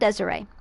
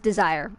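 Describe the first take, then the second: First: The name ends with an 'ay' sound. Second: The name ends with an 'ire' sound. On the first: The speaker calls it wrong. "it's not Desiree" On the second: The speaker calls it right. "It is pronounced that way"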